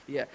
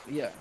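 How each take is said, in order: No difference in how they are said.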